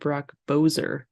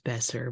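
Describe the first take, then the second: First: The surname's first vowel sounds like 'oh'. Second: The surname's first vowel sounds like 'eh'. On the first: The speaker calls it wrong. "you said Brock Bozer" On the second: The speaker calls it right. "no, it's Besser"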